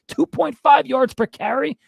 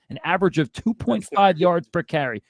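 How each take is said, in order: First: High, slow disbelieving question; outraged disbelief, voice shooting up high; incredulous repeat. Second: Said in the usual way. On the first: Real, not acted. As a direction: say it like you can't believe the number.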